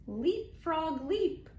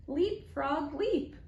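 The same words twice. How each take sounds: The two takes are said the same way.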